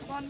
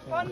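First: The word is said at a moderate volume. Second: The word is said loudly, almost shouted. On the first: The speaker calls it wrong. "No, louder" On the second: The speaker calls it right.

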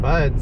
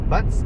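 First: The word ends with a soft d sound. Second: The word ends with a crisp t sound. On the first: The speaker calls it wrong. "They said Buds" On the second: The speaker calls it right. "it's Butts Canyon"

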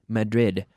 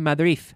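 First: The final D is clearly sealed and sounded. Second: The final D is weak or barely sounded. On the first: The speaker calls it right. "You need to seal that sound and pronounce that D" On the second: The speaker calls it wrong. "it bothers me when people say"

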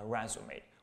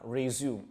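First: It is said with the noun pronunciation. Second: It is said with the verb pronunciation. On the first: It names a summary document. "用作名词叫做resume" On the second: It means to take up again. "用作动词，它是读作叫做resume"

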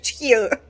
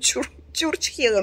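First: The first syllable has no r sound. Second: The first syllable contains an r sound. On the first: This is how people at the market say it. "но вы говорите чучхела" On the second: This is the proper form of the word. "я знаю, что чурчхела"

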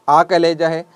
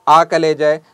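No difference in how they are said.

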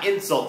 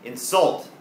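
First: The stress is on the first syllable. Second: The stress is on the second syllable. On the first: It is a noun meaning an insulting remark. "จะเน้นเสียงตอนแรกนะครับ" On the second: It is a verb meaning to insult someone. "แต่ถ้าเน้นเสียงตอนท้ายนะครับเช่น"

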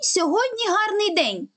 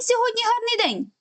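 First: It is said a little faster than normal. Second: It is said as fast as possible. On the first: "Спробуємо ще раз, але вже трішечки швидше" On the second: "спробуємо повторювати чистомовочку як омога швидше"

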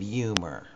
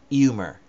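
First: The h at the start is sounded. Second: The h at the start is silent. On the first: The spelling has shaped how it is said. "if you see it, well, then you say it" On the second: This is how it was said before printing. "H's were not pronounced. So it was literally"

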